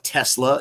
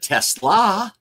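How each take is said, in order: First: The name sounds like the car brand. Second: The name ends with an extra 'ah' sound. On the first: It refers to the car company. The speaker calls it wrong. "you can't have a Tesla in Ford Field" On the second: It refers to the player's real name. The speaker calls it right. "but you can have a Tesla"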